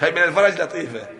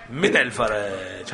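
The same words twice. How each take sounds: First: "الفرج" given the weight, falling; stress on الفرج. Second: "من" drawn out slow and low; slow stress on من. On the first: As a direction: land on "الفرج" with a falling tune. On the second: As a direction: lean slowly on "من الفرج". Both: Shown as a demonstration.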